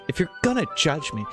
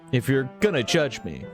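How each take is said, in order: First: It is said in a put-on character voice. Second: It is said in the speaker's own voice.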